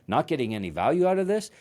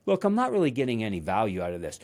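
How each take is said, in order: First: Quick, rising, incredulous imitation of a mentor; arrogant mock disbelief. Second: Said in the usual way. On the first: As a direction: echo it back as an offended, higher question. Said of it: "an arrogant mentor". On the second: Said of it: "that I wanted to be like".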